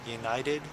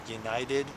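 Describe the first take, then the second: No difference in how they are said.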